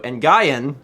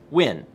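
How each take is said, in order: First: The name is said as 'nuh-guy-en'. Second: The name is said as 'win'. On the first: The speaker calls it wrong. "what my my very Western brain said" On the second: The speaker calls it right. "It's just Win"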